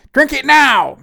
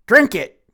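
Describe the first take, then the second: First: High, loud shouted demand; furious shout. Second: Loud, sharp order to drink it; angry command. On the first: Pixie screams at him to drink it now, full shout. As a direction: yell it at full force, no patience left. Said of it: "she shouted". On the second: Pixie orders him to drink, loud and angry. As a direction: bark the command, a touch raised. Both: A narrator's reading.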